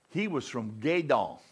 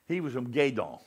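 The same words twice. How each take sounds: First: Said in the usual way. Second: Put-on deep South Louisiana accent. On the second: Preacher imitates his Louisiana roommate, Southern accent. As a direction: lightly mimic a Gueydan, Louisiana accent. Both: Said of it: "He talked like that".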